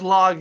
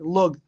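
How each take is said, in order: First: The vowel sounds like the one in dog. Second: The vowel sounds like the one in cup. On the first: The speaker calls it wrong. "it says log here" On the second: The speaker calls it right. "that's a more proper way to pronounce the word"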